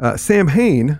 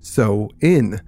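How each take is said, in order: First: It is said like 'sam-hane', with a sounded h. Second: It is said like 'sow-in', with no h sound. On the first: The speaker calls it wrong. "You did it wrong" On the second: The speaker calls it right. "It's actually pronounced so in"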